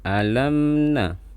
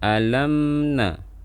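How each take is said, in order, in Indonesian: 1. Bunyi m ditahan sedikit saja. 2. Bunyi m ditahan sedikit saja.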